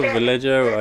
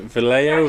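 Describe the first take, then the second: First: Vallejo said with a hard English J, "va-LEDGE-oh"; pronunciation variant. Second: Vallejo said with a silent J, "va-LAY-oh"; pronunciation variant. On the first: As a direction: say Vallejo as "vuh-LEJ-oh", J as in jam. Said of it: "never been told how to pronounce that". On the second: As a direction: say Vallejo as "vuh-LAY-oh", no J sound. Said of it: "how do you pronounce it?". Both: Shown as a demonstration.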